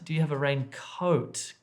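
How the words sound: The vowel in coat is long. The speaker calls it right. "they should be making that a long sound"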